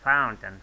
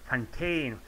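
First: The word is pronounced like 'fountain'. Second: The word is pronounced like 'Fontaine'. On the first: The speaker calls it right. "I should have said fountain" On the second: The speaker calls it wrong. "I said so many times, Fontaine, fucking Fontaine"

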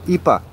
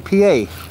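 First: It is said in a Hawaiian-style way. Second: It is said in an ordinary, standard way.

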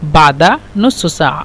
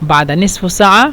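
First: The middle word is said with a u vowel. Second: The middle word is said with an i vowel. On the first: "এটা হলো আঞ্চলিক ভাষা" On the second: "ফুসহা"

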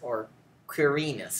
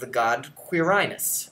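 First: The name is said with classical Latin pronunciation. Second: The name is said with English pronunciation.

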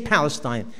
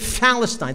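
First: The word begins with a clear P sound. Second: The word begins with a non-P sound. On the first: "They can't even say Palestine" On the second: "They say Palestine. They can't say the P"

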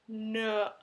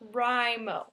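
First: The 'Wri' sounds like the start of 'Rima'. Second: The 'Wri' sounds like the start of 'writing'. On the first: The syllable follows the pattern of the others. The speaker calls it right. "You've got national, so it should be novel, NaNoWriMo. Rima" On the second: The syllable follows the word it stands for. The speaker calls it wrong. "Your logic is that it's writing, so therefore it should be NaNoWriMo"

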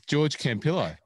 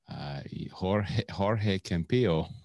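First: The first name has an anglicized pronunciation. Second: The first name has its native pronunciation.

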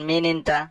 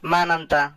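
First: It is said in the colloquial form, min inta. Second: It is said in the formal form, man anta. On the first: This is the everyday spoken form. "আমরা বেশিরভাগই কথাবার্তা মিন শব্দটি ব্যবহার করে থাকি" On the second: This is the correct standard form. "শুদ্ধভাবে বলতে"

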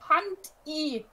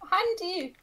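First: The two parts are said separately with a break. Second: The two parts are joined into one word. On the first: The speaker calls it wrong. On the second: The speaker calls it right.

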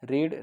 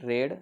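First: The vowel is long, like in 'reed'. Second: The vowel is short, like in 'red'. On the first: It is the present or base form. "जर रीड असेल तर रीड हे V1मध्ये पण रीडच येतं" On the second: It is the past form. "भूतकाळी रूप रेड म्हणतो आपण"

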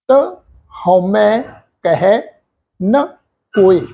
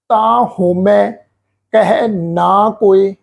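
First: The 'ta' and 'na' have short open vowels. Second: The 'ta' and 'na' have lengthened vowels. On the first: The speaker calls it right. "ਇੱਥੇ ਪਾਠ ਤਾ ਅੱਖਰ ਮੁਕਤ ਹੈ ਜੀ" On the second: The speaker calls it wrong. "ਇਸ ਢੰਗ ਦੇ ਨਾਲ ਉਚਾਰਨ ਨਹੀਂ ਕਰਨਾ"

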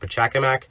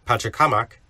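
First: The name is said with an anglicized inflection. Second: The name is said with a Peruvian inflection. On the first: "some people pronounce it as Pachacamac" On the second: "I prefer to say it with an inflection as they do in Peru"

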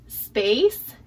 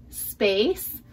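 Both takes have the same delivery.

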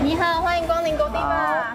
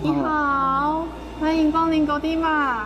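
First: The greeting sounds very polite and courteous. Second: The greeting sounds lazy and languid.

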